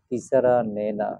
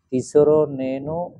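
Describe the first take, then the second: First: The vowels sound closer to a. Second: The vowels sound closer to o. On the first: The speaker calls it right. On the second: The speaker calls it wrong.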